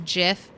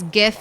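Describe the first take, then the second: First: It starts with a soft J-like sound. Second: It starts with a hard G sound. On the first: This is the pronunciation the creator prefers. The speaker calls it wrong. "the creator of the GIF format said it should be read as a GIF" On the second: This is the pronunciation the speaker insists on. The speaker calls it right. "it has to be a hard Jeep... It's GIF until I die"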